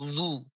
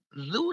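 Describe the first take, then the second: First: The consonant is thick and emphatic, deep in the mouth. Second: The consonant is light and plain, not emphatic. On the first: Take it lightly. The speaker calls it wrong. "kalau kita salah baca jadi tebel" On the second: Beware of it. The speaker calls it right. "zu tipis"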